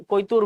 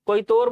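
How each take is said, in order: First: "कोयतूर" ending in a long oo, "toor"; u variant. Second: "कोयतोर" की आख़िरी मात्रा ओ, "तोर"; o वाला उच्चारण. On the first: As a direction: say "कोयतूर" with oo in the last syllable, not o. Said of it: "कोयतूर भी बोलते हैं". ("कोयतूर" के अंत में "तूर" बोलें, "तोर" नहीं) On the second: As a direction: say "कोयतोर" with a long o in the last syllable. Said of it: "कोयतोर बोलते हैं". ("कोयतोर" के अंत में "तोर" बोलें, "तूर" नहीं) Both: Shown as a demonstration.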